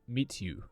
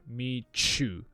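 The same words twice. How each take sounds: First: The t and y stay as separate sounds. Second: The t and y blend into a ch sound. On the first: The speaker calls it wrong. "it's not meet you, right? That doesn't sound like a native speaker" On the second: The speaker calls it right. "we have ch happening in this word"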